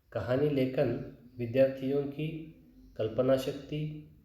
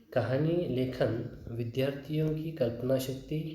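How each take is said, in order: Both takes have the same delivery.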